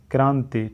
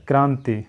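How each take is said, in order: Both takes have the same delivery.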